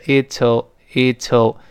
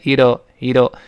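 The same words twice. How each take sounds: First: It is said slowly with a clear t. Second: It is said quickly with a voiced, flapped t. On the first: "读慢了是It'll" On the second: "读快之后呢还是会浊化的是It'll"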